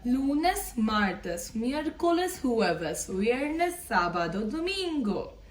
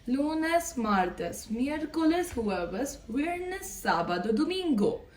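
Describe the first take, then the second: No difference in how they are said.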